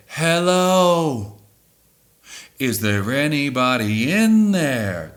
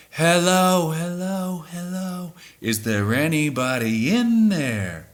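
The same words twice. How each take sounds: First: Single high sung hello, no repeats; sung without echo. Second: Mimicked vocal delay. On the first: Singing the line once with no echo, as fans would not. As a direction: sing it once straight, no delay effect. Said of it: "That's not what they would do". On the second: Showing how fans copy the studio echo, fading sung hellos. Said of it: "They would go like this". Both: Shown as a demonstration.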